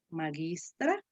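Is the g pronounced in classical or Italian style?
classical. The g has the classical Latin sound. "La G que nosotros la vamos a pronunciar suave, aquí digo"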